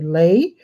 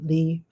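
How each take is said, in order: First: The name is said with an 'ay' vowel. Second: The name is said with an 'ee' vowel. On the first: "it's actually Lay" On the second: "it'll be interesting if I discover that I'm mispronouncing"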